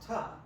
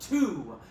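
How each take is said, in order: First: The word has a reduced schwa vowel. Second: The word has a full, clear vowel. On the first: The word is treated as an unimportant function word. The speaker calls it right. "Instead, we use ta" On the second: The word is treated as important for the audience to hear. The speaker calls it wrong. "I need you, audience, to hear this word to"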